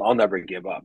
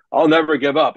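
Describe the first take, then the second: First: Said in the usual way. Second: Mock stubborn vow, higher and louder, NEVER pushed. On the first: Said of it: "having to say". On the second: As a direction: ham up a pig-headed "I'll never give up". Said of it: "be stubborn as hell and go".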